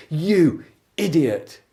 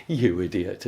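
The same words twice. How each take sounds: First: "You idiot" slow and loud, both words punched; drawn-out emphasis. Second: Said in the usual way. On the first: Shown as a demonstration. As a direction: lean hard on "You", then "idiot". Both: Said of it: "whole world of difference between".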